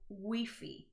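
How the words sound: It is pronounced the Spanish way, as written. "they literally pronounce the letter or the word how it is written. So Wi-Fi"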